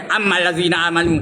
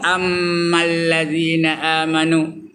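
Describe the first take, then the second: First: The m is short with no held nasal hum. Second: The m is held with a long nasal hum. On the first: The speaker calls it wrong. "tak ada dengung" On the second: The speaker calls it right. "Patutnya dengung"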